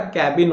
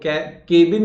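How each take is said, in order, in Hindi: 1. पहला स्वर 'cat' के 'a' जैसा बोला जाता है। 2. पहला स्वर 'bed' के 'e' जैसा बोला जाता है। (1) "कैबिन होता है" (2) "तो केबिन नहीं होता"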